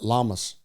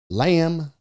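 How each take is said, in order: First: It is said as two syllables, like 'llamas'. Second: It is said as one syllable, like 'lamb'. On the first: The speaker calls it wrong. "For many years, I called it Llamas" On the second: The speaker calls it right. "nevertheless, it's lamb"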